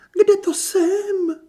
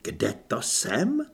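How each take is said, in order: First: Very high, slow, drawn-out wail; theatrical fainting diva. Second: Irritated mimicry. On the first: Kristýna coming round from a feigned faint, wailing theatrically. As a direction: come round melodramatically, moaning high and loud. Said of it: "Kristýna zasténala a zavířila řasemi". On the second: Perdita inwardly grinds at Kristýna's words, irritated echo. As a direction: repeat it slowly and sceptically, through gritted teeth. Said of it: "Perdita zaskřípala Anežčinými zuby". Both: A narrator's reading.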